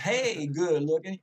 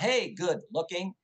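First: It is said with a Southern country accent. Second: It is said without a Southern accent.

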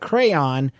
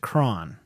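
First: It is said with two syllables, like 'cray-on'. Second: It is said as one syllable rhyming with 'crown'. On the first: "it's not a crayon" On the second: "It sounds like a crown"

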